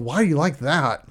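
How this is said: It sounds harsh and accusing, like an interrogation.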